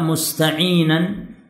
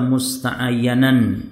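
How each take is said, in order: First: The word ends with the sounds 'inan'. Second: The word ends with the sounds 'ayyanan'. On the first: The speaker calls it right. "Antum harokati yang benar" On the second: The speaker calls it wrong. "Jangan dibaca musta'ayyanan"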